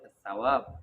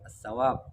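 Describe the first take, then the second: First: The word begins with a 'th' sound. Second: The word begins with an 's' sound. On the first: The speaker calls it right. "وإنما يقول الثواب بالثاء" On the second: The speaker calls it wrong. "لا يقول"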